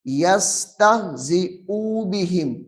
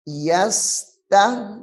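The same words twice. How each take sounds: First: यस्तहजिउ बिहिम with the hamza vowel stretched long, the mistake; यस्तहजिउ बिहिम recited with a wrongly lengthened vowel; wrong reading. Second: यस्तहजिउ with a short u on the hamza, not stretched; यस्तहजिउ recited correctly with an unlengthened hamza vowel; correct short reading. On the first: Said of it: "ये गलत हो जाएगा". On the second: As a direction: keep the pesh on यस्तहजिउ short. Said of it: "हमजा के ऊपर पेश है, इसको लंबा नहीं करना". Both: Shown as a demonstration.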